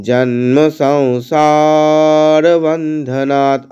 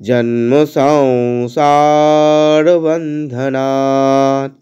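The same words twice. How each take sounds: Both takes have the same delivery.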